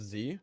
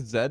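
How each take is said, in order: First: The letter is said the American way. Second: The letter is said the non-American way.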